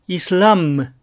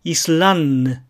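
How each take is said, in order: First: "イスラム" with a held, lips-closed m; overdone m ending on イスラム; exaggerated final m. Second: "イスランヌ" slowly, n released as nnu; overdone n ending on イスランヌ; exaggerated final n. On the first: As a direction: hum the last m of イスラム. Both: Shown as a demonstration. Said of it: "最後工夫して発音します".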